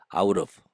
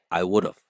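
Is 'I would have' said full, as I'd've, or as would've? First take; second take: I'd've; would've. First: The three words merge into one short syllable group. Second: The have is reduced to a sound like of. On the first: "여기서 조금 더 축약될 수 있어가지고" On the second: "축약을 of 발음 비슷하게"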